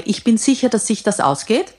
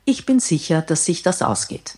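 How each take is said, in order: First: "sicher" lifted and stressed, phrase ending on a rise; confident with a rising ending. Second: Firm stress on "bin", falling end. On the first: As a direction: push "sicher" up and let "ausgeht" rise. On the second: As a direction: lean on "bin", then fall away. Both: Shown as a demonstration. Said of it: "Ich mache mal zwei Varianten vor".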